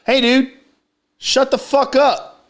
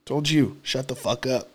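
First: High-pitched, drawn-out mock telling-off; slow, high retold demand; retold confrontation. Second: Low, soft re-enacted telling-off; quiet, low retold threat; muted retold warning. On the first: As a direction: re-enact calling out a stranger, pitched up. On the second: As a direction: repeat the demand under your voice, pitched down. Retold repeat of the demand, muted.

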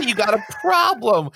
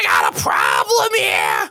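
First: High Iago line without the growl. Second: Low, loud, slow guttural parrot shout; guttural Iago. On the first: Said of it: "you gotta say". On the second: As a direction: growl it from the throat like Iago. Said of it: "that guttural sound like Iago". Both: Shown as a demonstration.

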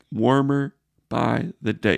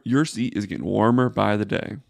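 First: Warmer by the day slowed, leaning on Warmer; slow emphatic repeat. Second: Said in the usual way. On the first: Real, not acted. To the general manager, a slow pointed repeat. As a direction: drag it out and hit Warmer.

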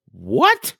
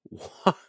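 First: Loud, high-pitched incredulous shout; acted-out shocked outburst; shocked disbelief. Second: Short, stunned first what; stunned disbelief. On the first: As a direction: repeat it as an incredulous yelp. Stunned reaction, repeated much louder. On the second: Retold or imitated. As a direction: blurt a cut-off, stunned question. Stunned reaction to friend's confession.

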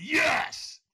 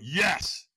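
First: High, loud yell of yes; screamed yes. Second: Held-back yes. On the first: Answering the trainer's demand for stronger, screamed yes. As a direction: throw it out louder, pitched way up. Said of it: "I screamed". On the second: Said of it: "I was not in a peak state". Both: Retold or imitated.

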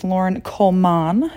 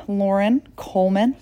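First: Coleman with a full "MAN" ending; mock-corrected pronunciation. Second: Said in the usual way. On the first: Shown as a demonstration. Naming the best friend, Coleman mock-corrected to "coal-mahn". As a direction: say Coleman as "coal-MAHN", second vowel unreduced. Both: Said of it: "I think it's Lauren Coleman".

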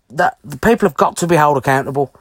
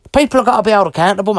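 First: Said in the usual way. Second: Rushed, heated insistence; fast insistent. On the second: Real, not acted. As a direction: rattle it off quickly and firmly. Repeats the point, first fast.

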